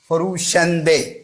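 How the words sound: The word ends in an 'e' vowel. "ईरानी तो कहेगा"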